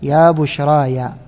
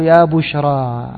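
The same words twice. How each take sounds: First: Slow recital of يا بشرايا with the added -aya ending; قراءة غير الكوفي: يا بشرايا بالياء; non-Kufi reading. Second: Slow recital of يا بشرى ending on a long open a with no ya; قراءة الكوفيين: يا بشرى بالألف; Kufi reading. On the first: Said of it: "غير الكوفي قرأ إيش". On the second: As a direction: recite يا بشرى slowly the Kufan way, word ending in alif. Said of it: "فالكوفيون قرأوا". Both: Shown as a demonstration.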